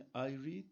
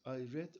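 First: The vowel in read is long, like seed. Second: The vowel in read is short, like bed. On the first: The reading happens habitually, in the present. "okurum demek" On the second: The reading happened in the past. "okudum demek"

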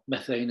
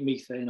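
First: The first syllable has a short 'e' vowel. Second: The first syllable has a long 'ee' vowel. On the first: This is how the listener probably pronounces it. "as you pronounce it probably" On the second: This is the speaker's own usual pronunciation. "Usually methane"

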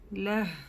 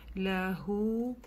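First: The word ends on h with no vowel. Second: The word ends with a lengthened u vowel. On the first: This is the form used when stopping. "При остановке, как вы слышали, я сказала здесь га с сукуном" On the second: This is the form used when continuing. "при продолжении ляху два хараката, тянем"

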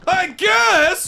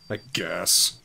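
First: It is said with lively, excited energy. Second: It is said flatly, with little enthusiasm.

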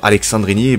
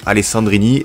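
First: The middle consonant is a ks sound. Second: The middle consonant is a plain s sound. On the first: The name would need an X to be said this way. The speaker calls it wrong. "tu lui dis à Romain de mettre un X dans son nom" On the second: The name is said the way it is written. The speaker calls it right. "On va le prononcer comme ça s'écrit"

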